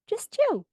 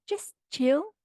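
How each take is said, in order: First: Squeaky mock chill. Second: Higher mock dude voice, rising; mock chill. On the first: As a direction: push the mockery up into a squeak. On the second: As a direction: tease him telling her to relax. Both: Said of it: "He's like".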